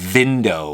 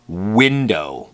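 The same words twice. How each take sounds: First: It begins with a V, top teeth on lower lip. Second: It begins with a rounded W, lips not touching teeth. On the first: The speaker calls it wrong. "We wouldn't say" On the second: The speaker calls it right. "There's no teeth touching the lips in an, in an English W"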